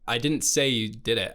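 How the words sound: The stress is on the word I.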